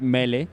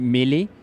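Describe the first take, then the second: First: The word is read with Spanish-style vowel sounds. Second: The word is read with English-style vowel sounds. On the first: This is how the spelling reads in Spanish. "if you read it in Spanish, you would say melee" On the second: This is how the word is commonly said in Mexico. "it's weird that we say melee"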